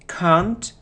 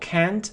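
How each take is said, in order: First: It is said with a British accent. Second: It is said with an American accent. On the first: "British pronunciation" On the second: "American pronunciation"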